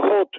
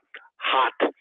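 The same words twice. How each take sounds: First: The vowel sounds like a Spanish O. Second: The vowel sounds like a Spanish A. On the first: The speaker calls it wrong. "y dice hot, usted no sabe pronunciar el inglés" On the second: The speaker calls it right. "caliente es con A"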